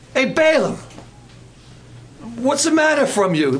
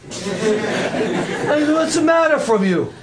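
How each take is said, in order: First: Light mock Brooklyn accent, a bit higher; tough-guy Brooklyn donkey. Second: Put-on very slow laughing Brooklyn accent. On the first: Donkey scolding Balaam in a mock Brooklyn accent. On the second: Donkey asking Balaam in a slow laughing Brooklyn accent. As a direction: drag out the Brooklyn line through a laugh. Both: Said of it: "the donkey was from Brooklyn".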